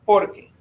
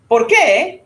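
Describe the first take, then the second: First: "Porque" stressed on POR, without a rise; answering intonation. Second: "Por qué" high and louder, rising on qué; questioning intonation. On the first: Teacher shows a doubtful student because, "Porque" without a question rise. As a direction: let "Porque" drop after the first syllable. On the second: Teacher shows a doubtful student why, "Por qué" with rising intonation. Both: Shown as a demonstration. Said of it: "It's just the intonation".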